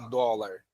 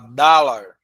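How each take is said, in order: First: The first vowel sounds like 'o'. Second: The first vowel sounds like 'a'. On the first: The speaker calls it wrong. "não fala dólar" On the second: The speaker calls it right. "com O, tipo um A"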